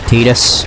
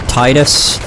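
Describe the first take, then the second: First: The first syllable does not sound like 'tide'. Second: The first syllable sounds like 'tide'. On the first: The speaker calls it wrong. "not Titus" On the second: The speaker calls it right. "I call it Titus, ... Kind of like a tidal wave"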